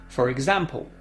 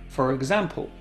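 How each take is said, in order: The two takes are said the same way.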